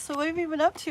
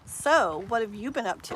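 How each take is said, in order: First: It is said in a soft, gentle tone. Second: It is said in a harsh, pointed tone. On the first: The question sounds like casual friendly interest. The speaker calls it right. "it's delicate in the beginning. And so maybe like" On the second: The question sounds like an accusation. The speaker calls it wrong. "don't make it sound like"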